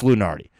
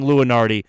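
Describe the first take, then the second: First: LUNARDI as loo-NAR-dee; chosen pronunciation. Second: LUNARDI as loo-uh-NAR-dee; rejected pronunciation. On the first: Podcaster settling on the name Lunardi as loo-NAR-dee. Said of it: "gonna go with Lunardi here". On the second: Podcaster catching his habit, Lunardi said as loo-uh-NAR-dee. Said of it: "I think you keep saying". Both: Shown as a demonstration.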